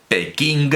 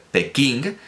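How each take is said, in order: Both takes have the same delivery.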